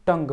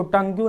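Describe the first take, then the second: First: टंग ending on "ng"; correct silent ue. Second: टंग्यू with "gyu" on the end; wrong ue sounded. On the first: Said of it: "टंग पढ़ते हैं". (टंग के अंत में यू silent) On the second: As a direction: add an audible "yu" to टंग्यू. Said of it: "इसको टंग्यू नहीं पढ़ते हैं". (टंग्यू के अंत में गलत "यू") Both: Shown as a demonstration.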